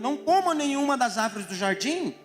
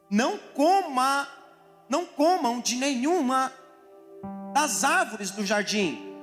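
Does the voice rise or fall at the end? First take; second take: rise; fall. First: It is read as a question, rising at the end. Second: It is read as a statement, falling at the end.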